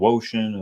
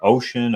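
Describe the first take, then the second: First: The name starts with a W sound. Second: The name starts with a plain vowel sound. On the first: "Do you say it with the W" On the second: "do you say ocean?"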